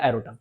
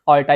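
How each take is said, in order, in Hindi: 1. यह शब्द 'aerota' की तरह बोला जाता है, तीन सिलेबल में। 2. यह शब्द 'alta' की तरह बोला जाता है, दो सिलेबल में। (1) "कई लोग एरोटा पढ़ते हैं" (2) "ऑल्टा बोलते हैं इसे"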